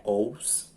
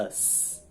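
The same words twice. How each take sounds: First: "ous" said with a diphthong, like "ohs"; spell-it-as-written "ous", o gliding to u; wrong suffix pronunciation. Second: "us" with a short reduced vowel; correct suffix pronunciation. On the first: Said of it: "não é ous". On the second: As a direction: say "us" as a plain "uhs", no glide. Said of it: "a pronúncia é us". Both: Shown as a demonstration.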